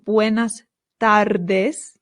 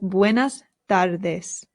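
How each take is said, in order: First: The r in tardes is rolled. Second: The r in tardes is not rolled. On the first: The speaker calls it wrong. "one R in Spanish does not roll ... So it's not buenas tardes" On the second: The speaker calls it right. "It's just buenas tardes"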